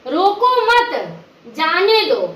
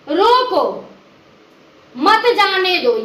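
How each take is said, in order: First: "रोको मत" run together, then a pause before "जाने दो"; pause after मत. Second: Long pause after "रोको", then "मत जाने दो" as one phrase. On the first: Teacher showing how the moved comma allows going, pause after "मत". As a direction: join "मत" to "रोको", break, then let "जाने दो" fall. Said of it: "जाने की बात कर रहा है". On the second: Teacher showing how the comma forbids going, pause after "रोको". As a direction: break firmly after "रोको", keep "मत" joined to "जाने दो". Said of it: "यहाँ नहीं जाने की बात कर रहा है". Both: Shown as a demonstration.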